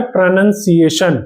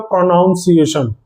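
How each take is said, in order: First: प्रोनाउंसिएशन said pre-nun-si-ation, light first vowels; correct pronunciation. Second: प्रोनाउंसिएशन said the common way, pro-naun-si-ation; wrong pronunciation. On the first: Teacher modelling the correct form for students, careful प्रोनाउंसिएशन. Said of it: "इसको हम बोलते हैं प्रोनाउंसिएशन". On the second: Teacher showing students a common mistake, wrong प्रोनाउंसिएशन. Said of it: "वो गलत है". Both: Shown as a demonstration.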